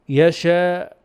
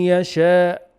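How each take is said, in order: First: It ends with a catch closing the throat. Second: The same.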